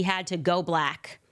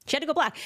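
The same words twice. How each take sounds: First: Said in the usual way. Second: "She had to go black" said much higher, landing hard on "black"; emphatic repeat. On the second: Shown as a demonstration. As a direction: punch "black" high and mocking.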